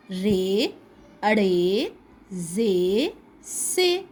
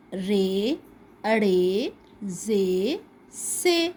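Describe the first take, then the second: No difference in how they are said.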